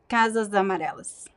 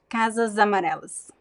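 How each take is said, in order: Both takes have the same delivery.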